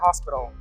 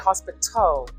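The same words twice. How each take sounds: First: The T sound is soft or dropped. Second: The T sound is clearly pronounced. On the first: Listeners may not understand the word. The speaker calls it wrong. "You can't say hospital" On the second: Listeners can understand the word. The speaker calls it right. "You have to have that T pronounced"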